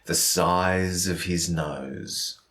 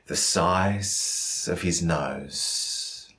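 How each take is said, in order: First: The s-sounds are voiced and buzzing like Z. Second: The s-sounds are unvoiced and hissing like S. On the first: The speaker calls it right. "Nice strong sentence" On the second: The speaker calls it wrong. "using S's instead of Z's"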